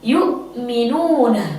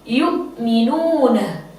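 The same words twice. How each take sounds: First: A glottal stop is pronounced before the m. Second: The same.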